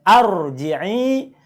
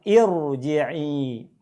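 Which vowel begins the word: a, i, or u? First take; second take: a; i. First: The word begins with an a vowel. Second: The word begins with an i vowel. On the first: The speaker calls it wrong. "bacanya bukan arji'i" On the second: The speaker calls it right. "tapi bacalah irji'i"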